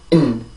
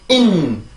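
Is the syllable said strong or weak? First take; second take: weak; strong. First: The syllable is said very short and weak. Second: The syllable is said strongly and forcefully. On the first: The speaker calls it right. "아주 짧고 약한 소리로" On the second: The speaker calls it wrong. "이런 식으로 소리를 내서 절대로 안 되고요"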